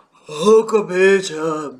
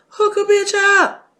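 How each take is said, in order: First: Slow, drawn-out auntie voice at normal pitch; Auntie Pat voice. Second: High, loud pushy auntie plea; Auntie Pat voice. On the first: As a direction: lean on each word like a pushy auntie. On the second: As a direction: push it like a bossy auntie. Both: Retold or imitated. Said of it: "In my Auntie Pat voice".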